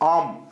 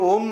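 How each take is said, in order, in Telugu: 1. ఇది తెరిచిన 'ah' అచ్చుతో జారుతూ మొదలవుతుంది. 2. ఇది ఒకే గుండ్రటి 'oh' అచ్చుతో మొదలవుతుంది. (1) "యాక్చువల్ వే ఆఫ్ ప్రొనౌన్సియేషన్ అయితే ఆమ్ అండి" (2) "ఎవల్యూషన్లో మన చేంజెస్ వల్ల అలా వచ్చింది"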